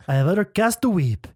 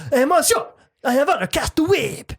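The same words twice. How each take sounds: First: Lightly mocked French accent. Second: High-pitched, staccato mock French; staccato French accent. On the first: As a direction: try out a Frenchman's English. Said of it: "say it like a Frenchman". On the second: Shown as a demonstration. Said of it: "a little more like staccato".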